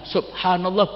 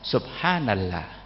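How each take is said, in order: First: It is said with clear, fluent Arabic pronunciation. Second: It is said in an imitated South Asian accent. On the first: Indonesians can pronounce it properly. The speaker calls it right. "bisa kok" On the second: Speakers from India, Pakistan or Iran cannot say it fluently. The speaker calls it wrong. "Baca subhanallah enggak bisa"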